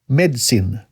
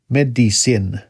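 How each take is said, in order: First: The word is said with a British pronunciation. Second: The word is said with a general American pronunciation. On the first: "British, usually"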